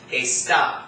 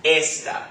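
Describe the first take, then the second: First: ESTA stressed on a drawn-out TA, as es-TA; stress on last syllable. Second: ESTA stressed on ES, as ES-ta; stress on first syllable. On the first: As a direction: land late on ESTA, lengthening the final TA. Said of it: "the accent mark overrides any other rule". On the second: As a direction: hit the ES of ESTA, light final TA. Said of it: "accent is gonna fall on the second to last". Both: Shown as a demonstration.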